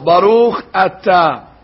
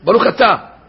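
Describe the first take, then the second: First: A pause separates the two words. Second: The words run together quickly with no pause. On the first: Every letter of the second word is kept. The speaker calls it right. "so you're supposed to pause" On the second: The opening sound of the second word is swallowed. The speaker calls it wrong. "if you say it fast, you say, Baruch Ata. Baruch Ata, Chata. So you swallow the Aleph"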